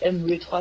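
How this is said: The W has a Flemish-influenced pronunciation. This is the speakers' habitual regional way. The speaker calls it wrong. "on dit M W trois"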